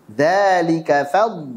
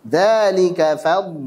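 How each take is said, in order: The two takes are said the same way.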